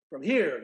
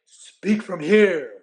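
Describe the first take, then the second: First: Said in the usual way. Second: Slow, loud coaching from the chest; slow directing coach. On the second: Retold or imitated. Referee coaching the announcer during a mic check, slow and loud. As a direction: press the words down like a coach. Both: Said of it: "He says".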